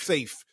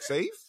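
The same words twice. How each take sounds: First: The voice falls at the end. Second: The voice rises at the end like a question.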